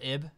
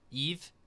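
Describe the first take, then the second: First: The name ends with a b sound. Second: The name ends with a v sound. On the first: The speaker calls it wrong. "not Ib" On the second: The speaker calls it right. "It's pronounced Eve"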